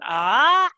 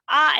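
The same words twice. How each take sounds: First: The pitch rises from mid to high. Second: The pitch stays high and level. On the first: "and then the rising tone" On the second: "there's the high tone, which is the first one, that's ah up here"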